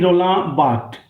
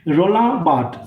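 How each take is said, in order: First: The surname is said simply as 'Bar'. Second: The surname ends with its final consonants sounded. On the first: "Sometimes we pronounce it simply Roland Barthes, B A R" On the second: "I just pronounce it according to the uh, spelling"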